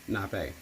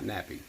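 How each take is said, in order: First: The word ends with an 'ay' sound. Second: The word ends with an 'ee' sound. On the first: The speaker calls it right. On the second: The speaker calls it wrong.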